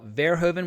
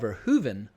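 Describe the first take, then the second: First: The stress is on the first syllable. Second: The stress is on a later syllable. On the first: "with the emphasis on the first syllable" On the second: "the correct pronunciation is"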